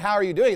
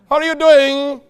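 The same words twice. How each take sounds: First: It is said in his normal voice. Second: It is said in a put-on clerk's voice.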